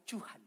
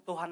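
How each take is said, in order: First: "Tuhan" begun with a ch, as "Chuhan"; comic mispronunciation of "Tuhan" as "Chuhan". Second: Said in the usual way. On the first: Shown as a demonstration. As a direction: swap the T of "Tuhan" for a ch sound. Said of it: "Bukan cu-, Tuhan lagi, tapi". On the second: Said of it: "Bukan cu".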